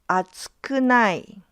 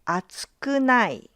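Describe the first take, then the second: Both takes have the same delivery.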